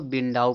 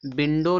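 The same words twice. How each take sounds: First: "विंडाउ" ending in an ow glide; prescribed pronunciation. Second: "विंडो" ending in a plain o; common pronunciation. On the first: Teacher recaps the reading to use, "विंडाउ" ending in au. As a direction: say "विंडाउ" as bin-dau. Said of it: "इसको विंडाउ पढ़ा जाएगा". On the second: Teacher recaps how people read it, "विंडो" ending in o. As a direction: say "विंडो" as bin-do, round final o. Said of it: "लोग पढ़ते हैं". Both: Shown as a demonstration.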